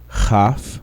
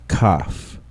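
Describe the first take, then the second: First: The first consonant is a soft fricative. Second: The first consonant is a hard stop. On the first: The letter has no dot inside. "first in their soft form" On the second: The letter has a dot inside. "then in the hard form with the dagesh lene"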